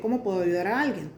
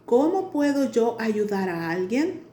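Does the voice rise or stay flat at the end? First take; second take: flat; rises. First: The voice stays flat, without question intonation. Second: The voice is shaped as a question. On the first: It sounds like a statement, not a question. The speaker calls it wrong. "No es lo mismo que" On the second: It is asking a question. The speaker calls it right. "Esa es una pregunta"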